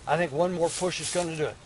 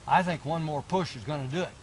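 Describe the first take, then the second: No difference in how they are said.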